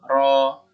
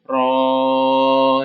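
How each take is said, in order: First: The vowel is held briefly, two counts. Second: The vowel is drawn out for a long time. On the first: The speaker calls it right. "ro-nya cukup dua harokat" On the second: The speaker calls it wrong. "nggak usah panjang-panjang, nggak usah ro gitu ya"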